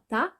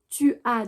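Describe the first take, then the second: First: It is contracted into one short syllable. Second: It is said as two full separate words.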